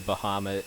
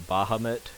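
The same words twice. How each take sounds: First: The opening does not sound like 'Baja'. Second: The opening sounds like 'Baja'. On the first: "I just I say Bahamut" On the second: "like Baja California"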